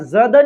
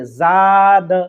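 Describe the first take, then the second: First: The vowel is said short and quick. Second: The vowel is drawn out and long. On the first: The speaker calls it wrong. "यहाँ ज़द नहीं पढ़ेंगे" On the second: The speaker calls it right. "बल्कि ज़ाद"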